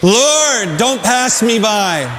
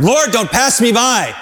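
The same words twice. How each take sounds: First: Leading the congregation. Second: Pleading cry. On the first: Shown as a demonstration. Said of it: "Let's say that together". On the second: Acted. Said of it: "Abraham had to ask for him".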